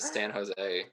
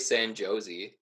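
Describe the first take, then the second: First: The name ends with an 'ay' sound. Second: The name ends with an 'ee' sound. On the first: The speaker calls it right. "instead of" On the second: The speaker calls it wrong. "when I was a kid, I used to say"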